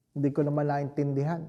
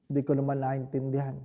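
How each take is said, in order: Both takes have the same delivery.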